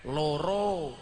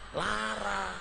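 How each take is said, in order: First: Both vowels are 'o' sounds. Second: Both vowels are 'a' sounds. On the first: This is how Javanese speakers say it. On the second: This is how Ngapak speakers say it.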